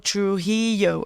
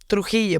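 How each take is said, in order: First: The name is said with English sounds. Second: The name is said with Spanish sounds. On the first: This is how other people say the name. The speaker calls it wrong. "They're like, oh" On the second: This is how the owner of the name says it. The speaker calls it right. "And I'm like, well"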